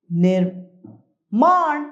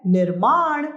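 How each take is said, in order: First: निर्माण drawn out very slowly, falling; wrong form. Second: Said in the usual way. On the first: Shown as a demonstration. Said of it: "गलत है". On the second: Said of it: "निर्माण सही है".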